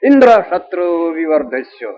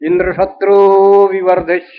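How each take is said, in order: First: The stress falls on the word Indra. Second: The stress falls on the word shatru. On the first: Let one whose killer is Indra arise. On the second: Let the enemy who kills Indra arise.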